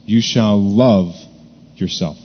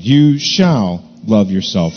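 First: Slow down and press on "love"; stress on love. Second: "shall" stretched slowly and weighted; stress on shall. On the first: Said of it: "emphasize that third word". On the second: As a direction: draw out "shall" like a command. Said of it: "the second word of this command". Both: Shown as a demonstration.

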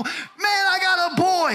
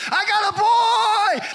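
First: Proud shout. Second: High, loud, slow joyful yell; a new father yelling his news from a tabletop; joyful shout. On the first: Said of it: "I reflect back to the time standing on that table". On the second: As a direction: shout it out like a proud new dad. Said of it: "I started doing this". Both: Retold or imitated.

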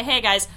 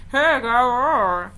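First: Said in the usual way. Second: Louder, higher skeleton groan. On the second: Pretend. Host greeting for the skeletons with her, silly skeleton voice. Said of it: "Skeleton, skeleton voice".

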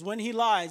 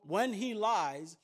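First: "When he lies" louder, the word "lies" hit and falling; "When he lies" declared firmly with a falling "lies"; punched reading. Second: "When he lies" drawn out slowly, rising at the end; "When he lies" said slowly like a question left hanging; slow deliberate. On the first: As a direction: land hard on "lies" in "When he lies". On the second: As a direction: weigh each word of "When he lies" slowly. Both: Shown as a demonstration. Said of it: "Another translation says".

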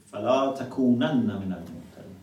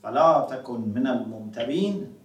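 First: "تكونن" with long u and doubled nun before "من"; with emphasis. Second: "تكن" with a single final n, running straight into "من"; without emphasis. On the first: Teacher shows students the verse with emphatic nun. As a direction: recite quickly, holding the doubled nun in "تكونن". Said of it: "one is with emphasis". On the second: Teacher shows students the verse without emphasis. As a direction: recite quickly, keeping the nun of "تكن" single. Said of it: "one is without emphasis". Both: Shown as a demonstration.

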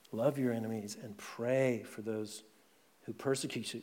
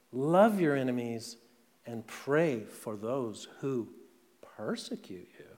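First: Softer, reflective repeat of Jesus' words; quiet repetition. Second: Said in the usual way. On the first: Shown as a demonstration. Pastor repeats Jesus' command softly for the congregation to absorb. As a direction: let the words sink in, softly. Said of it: "That's the spirit of the kingdom". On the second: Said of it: "But Jesus says".

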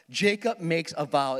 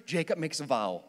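First: Slow it down and hit Jacob; emphatic repeat. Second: Said in the usual way. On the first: Shown as a demonstration. Preacher repeating the vow to drive it home, slow and emphatic. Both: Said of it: "repeats the line".

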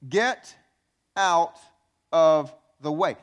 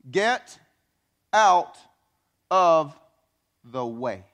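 First: "Get out of the way" again, each word loud and slow; repeated, word by word. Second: Get, out, of, the way punched apart, loud and slow; each word punched. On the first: Pastor repeating the command, slow and punched. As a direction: lean on "of the way" slowly. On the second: Pastor drilling the congregation, each word punched. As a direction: hit "Get out of the way" word by word, louder on out and of. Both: Acted.

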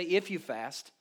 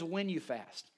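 First: "If" leaned on, falling; stress on if. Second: "When" weighted, falling tune; stress on when. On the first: Pastor contrasting Jesus' words, stressing "If". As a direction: set "If" apart from when. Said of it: "He didn't say". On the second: Pastor correcting the wording, stressing "When". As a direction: lean on "When". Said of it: "He says, "When you fast". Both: Shown as a demonstration.

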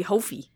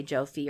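First: "Hofi" with the J turned into an H; Hofi with an H sound. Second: "Jofi" said with an English J at the start; Jofi with a J sound. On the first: Joking California reading of the dog's name, "Hofi" with an H. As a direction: say "Hofi", Spanish-style J as a breathy H. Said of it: "According to the California pronunciation". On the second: Co-host offers her reading of the dog's name, "Jofi" with a J. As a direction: say "Jofi" with J as in "joke". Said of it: "I would say Jofi". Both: Shown as a demonstration.

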